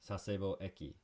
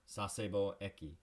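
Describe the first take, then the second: The two takes are said the same way.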